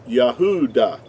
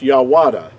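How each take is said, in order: First: The middle of the word has no W sound. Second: The middle of the word has a W sound. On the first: The speaker calls it right. "It would have to be pronounced Yah, Yahuda" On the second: The speaker calls it wrong. "It would not be pronounced Yawada"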